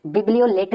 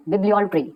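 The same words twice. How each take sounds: First: Bibliolatry with लेटरी sound, the wrong way; teacher showing the wrong bibliolatry; wrong pronunciation. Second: Bibliolatry with ट्री, the right way; teacher giving the correct bibliolatry; correct pronunciation. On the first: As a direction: say bibliolatry as लेटरी, the mistake to avoid. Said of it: "नहीं बोलना है". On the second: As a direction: finish bibliolatry on a clean ट्री. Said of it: "आप भी practice कीजिएगा". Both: Shown as a demonstration.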